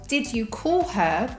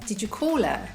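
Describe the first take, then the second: First: The h in 'her' is clearly pronounced. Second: The h in 'her' is dropped.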